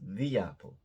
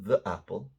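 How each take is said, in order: First: The word 'the' is said with a long 'thee'. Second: The word 'the' is said with a short 'thuh'. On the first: The speaker calls it right. "like T H E E" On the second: The speaker calls it wrong. "not the apple"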